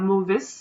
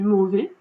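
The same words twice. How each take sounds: First: The final S sound is pronounced. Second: The final S sound is silent. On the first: The speaker calls it wrong. "on ne dit pas mauvais" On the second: The speaker calls it right. "on dit mauvais, on ne le prononce pas"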